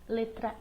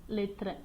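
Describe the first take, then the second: No difference in how they are said.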